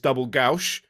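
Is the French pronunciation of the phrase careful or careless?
careless. It is said carelessly with an odd French accent. The speaker calls it wrong. "I apologize for his Belgian French accent"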